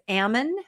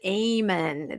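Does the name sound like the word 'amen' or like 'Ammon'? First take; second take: Ammon; amen. First: The name is said like 'Ammon'. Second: The name is said like the word 'amen'. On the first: The speaker calls it right. "His name is Ammon McNeff" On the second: The speaker calls it wrong. "they pronounce it Amen"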